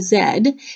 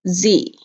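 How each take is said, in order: First: It is said the Canadian way, as zed. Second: It is said the American way, as zee.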